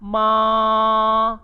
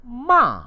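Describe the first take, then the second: First: The pitch stays high and level. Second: The pitch falls sharply from high. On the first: It means mother. "Bagi nada pertama disebut sebagai ma" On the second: It means to scold. "Tanda nada yang keempat pula ialah ma"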